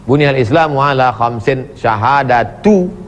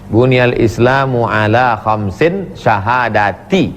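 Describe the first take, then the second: First: The last word ends with a 'u' vowel. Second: The last word ends with an 'i' vowel. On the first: The word starts a new clause: one of them is. "boleh dibaca rafa'" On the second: The word restates the number five. "Kalau dibaca jar"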